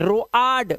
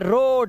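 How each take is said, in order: First: The vowel is split into o and a. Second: The vowel is one single o sound. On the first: The speaker calls it wrong. "ऐसा कुछ नहीं पढ़ते" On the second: The speaker calls it right. "ओ ए का उच्चारण ओ ही करना है आपको"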